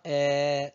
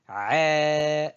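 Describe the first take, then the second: First: The vowel is plain and open. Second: The vowel is squeezed from deep in the throat. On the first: The speaker calls it wrong. "Ce n'est pas E" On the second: The speaker calls it right. "c'est plutôt E"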